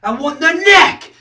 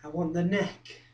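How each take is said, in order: First: High, loud outburst; raised voice, insisting hard; forceful demand. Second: Low, soft threat; softly stated want, held back; quiet menace. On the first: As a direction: burst out with the want. Second, explosive take. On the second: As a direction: say it hushed, with intent. First, menacing take. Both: Acted.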